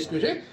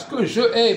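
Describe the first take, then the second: First: The vowel of je is dropped before ai. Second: The vowel of je is kept before ai. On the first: The speaker calls it right. "mais ce que j'ai" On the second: The speaker calls it wrong. "vous dites pas ce que je ai"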